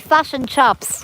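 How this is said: The vowels sound like 'fush' and 'chops'. "they say fush and chops"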